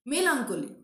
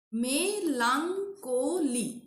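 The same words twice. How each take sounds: First: Said in the usual way. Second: Melancholy very slowly, me-lan-cho-ly; syllable by syllable. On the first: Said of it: "a word having four syllables". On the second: Shown as a demonstration. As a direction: stretch "Melancholy" into four separate beats. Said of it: "Okay, four syllables".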